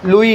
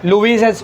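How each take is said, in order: First: It ends on a vowel, with no s sound. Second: It ends with an audible s sound. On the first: The speaker calls it right. "लुई है वो" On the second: The speaker calls it wrong. "नहीं पढ़ने का उसको"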